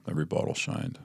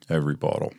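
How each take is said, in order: First: Whispered, almost breathless, every bottle shined; quiet whisper of awe at the bottles; hushed awe. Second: Said in the usual way. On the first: Retold or imitated. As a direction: breathe it out like a temptation. Repeating in awe of minibar.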